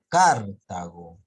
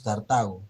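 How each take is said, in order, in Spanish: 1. El acento está en la primera sílaba. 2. El acento está en la sílaba del medio. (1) "si sería tilde en la car" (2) "la mayor fuerza de voz está en la, en la ta"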